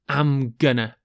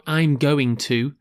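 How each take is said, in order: First: The words blend together into a shortened form. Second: Each word is said fully and separately. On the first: The speaker calls it right. "do take note of I'm gonna" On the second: The speaker calls it wrong. "It's not I'm going to"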